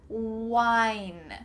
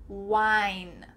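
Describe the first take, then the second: No difference in how they are said.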